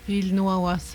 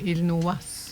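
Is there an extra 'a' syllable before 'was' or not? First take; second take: extra syllable; no extra. First: An extra 'a' syllable comes before the ending. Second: No extra syllable comes before the ending. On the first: It follows the written form. The speaker calls it wrong. "Il nous awas à l'écrit" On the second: It follows the spoken form. The speaker calls it right. "mais on dit il nous was"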